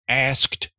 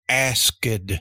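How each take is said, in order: First: The word ends in a T sound. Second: The word ends in a D sound. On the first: The speaker calls it right. "You say looked, asked" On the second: The speaker calls it wrong. "you don't say looked or asked"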